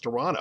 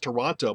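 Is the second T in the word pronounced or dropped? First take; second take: dropped; pronounced. First: The second T is dropped. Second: The second T is clearly pronounced. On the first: This is how locals say it. "We take out the T and it's Toronto" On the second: Locals never say it this way. "is never pronounced Toronto by people who live here"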